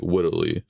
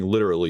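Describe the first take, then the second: First: Wittily, with a w sound replacing the l in literally; lisping accent word. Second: Said in the usual way. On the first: Shown as a demonstration. Streamer mimicking the AI accent by saying wittily with a w. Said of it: "instead of saying literally, you say, like, wittily". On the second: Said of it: "instead of saying literally".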